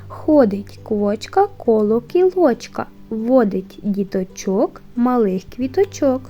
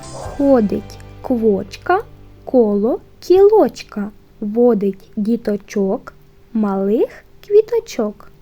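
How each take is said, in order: First: It is said at a faster pace. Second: It is said at a slower, careful pace.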